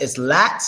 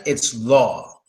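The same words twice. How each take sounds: First: "lat" with the short flat A, læt; short front A in "lat". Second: "law" with the deep rounded A, lɔ. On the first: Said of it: "On the left". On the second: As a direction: say "law" low with the open o. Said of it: "On the right". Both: Shown as a demonstration.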